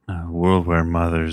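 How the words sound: It is spoken in a sleepy voice.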